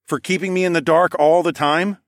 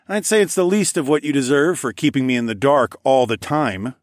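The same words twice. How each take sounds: First: Higher, louder teasing question; smirking. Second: Higher, playful jab; teasing jab. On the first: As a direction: echo it back with a rising smirk. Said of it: "I smirked". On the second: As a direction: needle him jokingly. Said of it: "I jabbed". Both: A narrator's reading.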